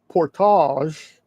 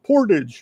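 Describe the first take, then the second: First: It is said the way Canadians say it. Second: It is said the way Americans say it. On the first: "the Canadians say it's portage" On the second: "the Americans or the Okies like me just say portage"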